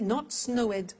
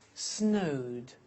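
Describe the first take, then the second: First: The ending is an extra syllable, snow-ed. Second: The ending is a plain D, snowd. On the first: The speaker calls it wrong. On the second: The speaker calls it right. "the pronunciation of ed becomes D"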